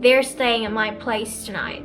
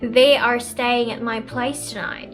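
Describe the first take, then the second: First: 'They are' is contracted to 'they're'. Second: The words 'they are' are said in full. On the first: "when I use contractions" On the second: "when I use contractions and not"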